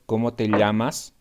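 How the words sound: The double L is a 'ly' sound. "I pronounce elle"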